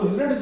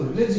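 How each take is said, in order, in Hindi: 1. j से पहले d ध्वनि सुनाई देती है। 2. j से पहले कोई d ध्वनि सुनाई नहीं देती। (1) "इसको रिड्ज नहीं कहते" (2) "इसको रिज कहते हैं। देखो डी से डा गायब होगा"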